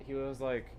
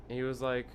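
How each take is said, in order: Both takes have the same delivery.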